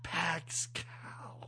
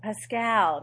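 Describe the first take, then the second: First: Pax Cal said as two clipped words; mispronounced name. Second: Pascal said with a clear s; correct pronunciation. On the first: The mom's mispronounced name, whispered. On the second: Correcting a friend's mispronounced name, clearly. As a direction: say Pascal, not Pax Cal. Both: Shown as a demonstration. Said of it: "not Pax".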